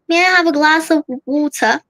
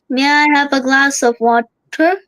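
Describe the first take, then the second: First: It is said in a lively British accent. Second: It is said in a flat Indian accent. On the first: The speaker calls it right. "And in British" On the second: The speaker calls it wrong. "In Indian accent, we all know how we say"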